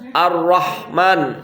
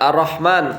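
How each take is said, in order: First: The r sound is doubled and held. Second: The r sound is single and short. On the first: The speaker calls it right. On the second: The speaker calls it wrong.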